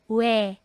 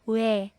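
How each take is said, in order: First: It is pronounced like 'we'. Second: It is pronounced like 'we'.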